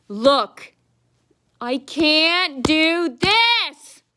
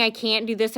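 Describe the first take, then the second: First: High, loud, very slow mocking whine; mocking whiny clerk. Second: Said in the usual way. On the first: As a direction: drag it out higher and louder to ridicule her. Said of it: "she goes". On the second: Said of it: "She's saying".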